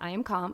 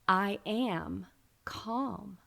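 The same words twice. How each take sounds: First: It is rattled off mechanically, without feeling. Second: It is said slowly, with deep feeling.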